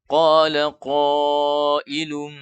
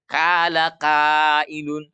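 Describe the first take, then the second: First: The q sounds are heavy and deep. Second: The q sounds are light and thin. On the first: The speaker calls it right. "itu harus tebal bacanya" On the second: The speaker calls it wrong. "Tidak dibaca dengan, eee, istifal atau turun pangkal lidah"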